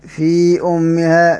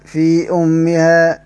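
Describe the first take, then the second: First: The vowel before the glottal stop is short. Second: The vowel before the glottal stop is short.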